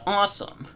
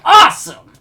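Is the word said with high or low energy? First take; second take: low; high. First: The word is said flatly with little energy. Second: The word is said loudly with lots of energy. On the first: The speaker calls it wrong. "You can't just be like" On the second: The speaker calls it right. "You gotta be like"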